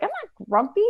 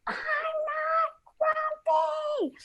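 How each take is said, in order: First: High-pitched huffy protest; grumpy denial. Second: Very high, drawn-out strained mock yell. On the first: Acted. Grumpy monkey denies it to snake, huffy. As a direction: insist grumpily, voice jumping up. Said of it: "he's so grumpy". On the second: Grumpy monkey finally snaps at his friends, mock yelling. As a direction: stretch each word into a held-back storybook scream. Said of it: "that I yelled at my friends".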